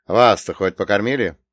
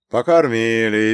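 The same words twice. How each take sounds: First: Said in the usual way. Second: Slow, contented reply; satisfied. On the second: Acted. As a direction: draw it out, pleased. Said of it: "довольно произнёс Прокоп".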